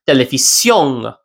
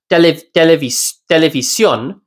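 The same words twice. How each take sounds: First: Televisión ending in an ng sound; back-of-mouth final N. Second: Televisión ending on a plain, typical N; typical final N. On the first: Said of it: "it'll be pronounced". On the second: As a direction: say televisión with an ordinary N at the end. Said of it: "Instead of being pronounced". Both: Shown as a demonstration.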